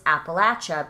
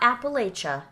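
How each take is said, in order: First: The third syllable sounds like 'latch'. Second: The third syllable does not sound like 'latch'. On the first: The speaker calls it right. "It's Appalachia because if you say it wrong, I'll throw an Appalachia" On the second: The speaker calls it wrong. "it's not Appalachia"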